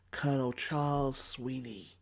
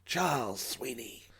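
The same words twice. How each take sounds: First: Said in the usual way. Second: Put-on slow self-introduction in an American accent; lightly voiced American pilot; Sweeney's American accent. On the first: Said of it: "These mysterious airmen helping the French". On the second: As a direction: give "Charles Sweeney" like a suave American flyer. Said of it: "with a strong American accent".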